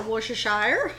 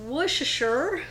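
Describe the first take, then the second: First: Worcestershire ending in "-shire", like "shy-er"; alternative pronunciation. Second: Worcestershire ending in a short "-sher"; first pronunciation. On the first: Cook offers the other way to say it, Worcestershire ending "-shy-er". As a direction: say Worcestershire as "WOOSH-uh-SHY-er", rising. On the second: Cook listing ingredients offers one way to say it, Worcestershire ending "-sher". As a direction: say Worcestershire as "WOOSH-uh-sher", rising. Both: Shown as a demonstration. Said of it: "however you like to say it".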